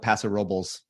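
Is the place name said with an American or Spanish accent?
American. The name is said with an American accent. "everyone would call it ... because it was a bunch of bunch of Americans"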